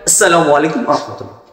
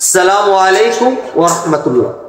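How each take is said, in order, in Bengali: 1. সালামটি একটু দ্রুত গতিতে বলা হয়। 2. সালামটি স্বাভাবিক, একটু ধীর গতিতে বলা হয়। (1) "একটু তাড়াতাড়ি" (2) "এটা হচ্ছে আমাদের স্বাভাবিক সালাম।"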